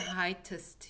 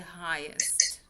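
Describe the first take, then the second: First: A T sound comes before the ending. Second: No T sound comes before the ending. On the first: The speaker calls it wrong. "You don't say heightest" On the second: The speaker calls it right. "you say highest"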